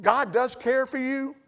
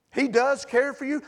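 First: Slow, weighted "God does care for you"; stress on God. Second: "He" pushed forward, the rest steady; stress on He. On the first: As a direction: lean on "God" and let it land. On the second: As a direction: hit "He" in "He does care for you". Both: Real, not acted. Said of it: "convincing a fashion as I possibly can".

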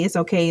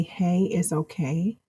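First: Said in the usual way. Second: Soft, slow, gentle "Hey, it's okay"; soothing reassurance. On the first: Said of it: "'Cause we could just say". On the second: Shown as a demonstration. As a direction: say it softly and slowly, to comfort. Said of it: "you have to believe that, not just say it".

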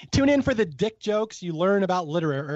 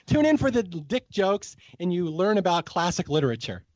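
First: "liter-," broken off midway, tongue tripping on it; stumbled word. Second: "literature" said cleanly and fully, syllable by syllable; corrected retake. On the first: Real, not acted. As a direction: trip over "liter-," and cut it off. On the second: Shown as a demonstration. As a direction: get "literature" right on the retake. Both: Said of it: "I ruined the word".

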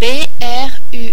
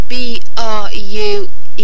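First: B R U E spelled out quickly with French letter names; French alphabet spelling of B R U E. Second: B R U E spelled out with English letter names; English alphabet spelling of B R U E. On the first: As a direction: say B R U E as "bé, erre, u, e". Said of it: "B R U E in French is". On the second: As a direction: say B R U E as "bee, ar, you, ee". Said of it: "in English to spell it". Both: Shown as a demonstration.

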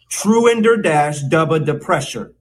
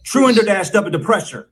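First: Measured, word-by-word "Truender dash dubba depressure"; slow teaching take. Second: Brisk, higher "Truender dash dubba depressure"; a little more quickly. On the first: Mock teacher introducing a very long word, slow and deliberate. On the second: Mock teacher speeding up the drill for students, quicker. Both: Shown as a demonstration. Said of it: "Say it a little more quickly".

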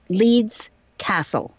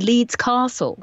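First: Slow "Leeds Castle" with a short a in Castle, as in cat; local pronunciation of Castle. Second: Slow "Leeds Castle" with a long ah in Castle; RP pronunciation of Castle. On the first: Naming the place on her demo, short-a Castle. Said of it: "and they say castle". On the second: Recalling her recorded demo, RP long-a Castle. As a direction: say Castle the RP way, "CAH-sul". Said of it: "in the R P you say castle". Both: Shown as a demonstration.

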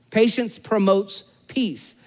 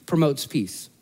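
First: "Patience promotes peace" slowed, each word weighted; slow emphasis. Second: Said in the usual way. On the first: Shown as a demonstration. Preacher driving home his point slowly. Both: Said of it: "sermon point repeated".

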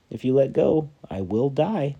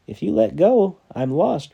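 First: High pleading call; dangling stranger begging him not to let go; urgent plea. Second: High, much louder desperate repeat; repeated plea. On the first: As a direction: plead it up from below. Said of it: "said the stranger". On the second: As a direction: shout the plea again, harder. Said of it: "repeated the stranger". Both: Acted.

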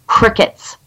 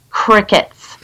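Both takes have the same delivery.

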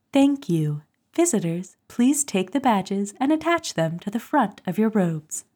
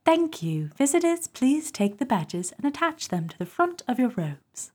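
First: A lightly voiced cool announcer read; cool female voice reading. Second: British accent. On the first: Host asked for the reading voice, lightly cool announcer. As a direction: read it like the smooth ministry voice. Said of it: "let me give you a snip". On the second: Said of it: "can you do it with, like, a Commonwealth accent". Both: Shown as a demonstration.

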